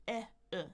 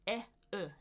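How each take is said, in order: Both takes have the same delivery.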